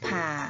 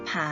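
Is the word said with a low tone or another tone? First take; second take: low; another. First: The word is said with a low tone. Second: The word is said without a low tone. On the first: "ถ้าเราลองผันเป็นเสียงเอกดูนะคะ" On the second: "คำว่าผา"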